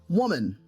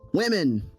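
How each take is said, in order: First: It is pronounced like the singular 'woman'. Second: It is pronounced as the plural 'women'. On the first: The speaker calls it wrong. "not woman" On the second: The speaker calls it right. "it's women"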